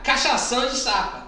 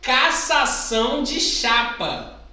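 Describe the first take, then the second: First: The phrase is said quickly and gets slurred. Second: The phrase is said at a normal pace.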